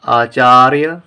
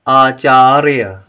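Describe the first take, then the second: First: Said in the usual way. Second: Acharya stretched slowly and louder; slow model reading. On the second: Shown as a demonstration. Teacher reads Acharya slowly for the class to repeat. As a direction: read Acharya slowly for pupils to copy. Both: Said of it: "आइए पहले हम इन शब्दों को पढ़ें".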